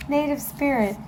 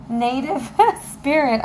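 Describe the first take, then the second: First: Said in the usual way. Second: Laughing through the card name; a laugh breaks the name. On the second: Real, not acted. To viewers, recalling the deck name, laughing. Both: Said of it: "I can't think".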